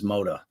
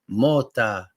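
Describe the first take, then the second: First: The name is said with an American pronunciation. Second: The name is said with an Italian pronunciation. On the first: This is how people here say the name. The speaker calls it wrong. "which everybody mispronounces as Moda" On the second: This is how the name is said in Italy. The speaker calls it right. "if you're in Italy, my name is pronounced Mota"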